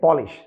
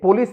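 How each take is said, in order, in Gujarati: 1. શબ્દનો અંત 'sh' અવાજથી થાય છે. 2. શબ્દનો અંત 's' અવાજથી થાય છે. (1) "પોલિશ, તમે બોલો" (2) "પોલીસ નહીં"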